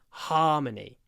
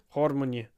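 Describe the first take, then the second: First: It is said with the mouth wide open. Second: It is said with the mouth nearly closed. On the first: The speaker calls it right. "You've got to open your mouth" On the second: The speaker calls it wrong. "If you have your mouth closed, harmony. It doesn't work"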